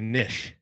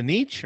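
First: Niche as NITCH or NISH, short I; alternative pronunciation. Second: Niche as NEESH or NEECH, long EE; first pronunciation option. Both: Shown as a demonstration. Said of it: "you can say it either way".

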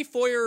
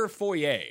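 First: "foyer" said FOY-er, ending in an r; anglicized foyer. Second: "foyer" said foy-AY, with a silent r; French-style foyer. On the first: Host questioning his guest's word, "foyer" pronounced FOY-er. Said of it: "it's foyer ... anyone that says foyer". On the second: Host correcting his guest, "foyer" pronounced foy-AY. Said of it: "It's a French word". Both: Shown as a demonstration.

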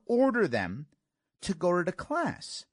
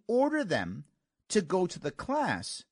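Both takes have the same delivery.

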